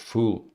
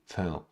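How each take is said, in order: First: The syllable has a full vowel, like 'full'. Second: The syllable has a short, reduced vowel. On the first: The speaker calls it wrong. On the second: The speaker calls it right.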